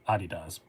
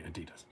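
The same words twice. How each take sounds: First: The brand name is said the German way. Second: The brand name is said the local way. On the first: The speaker is abroad. "When I'm over there, I say Adidas" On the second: The speaker is at home. "but here I say Adidas"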